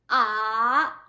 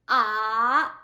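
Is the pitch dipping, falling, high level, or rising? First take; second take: dipping; dipping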